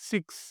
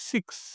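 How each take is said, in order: Both takes have the same delivery.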